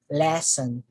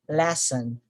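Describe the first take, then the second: No difference in how they are said.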